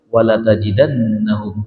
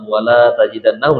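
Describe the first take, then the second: First: The la vowel is short and joined. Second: The la vowel is long and separated. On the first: The speaker calls it right. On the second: The speaker calls it wrong.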